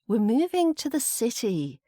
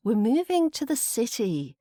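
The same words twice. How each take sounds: First: The stress falls on the word city. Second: The same.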